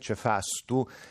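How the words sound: The middle vowel is a, with an s. This is the form used further north. "salendo verso per esempio nord si dice cefastu"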